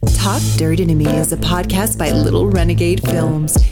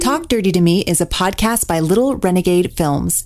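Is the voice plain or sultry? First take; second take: sultry; plain. First: It is read in a sultry, sexy voice. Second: It is read in a plain voice.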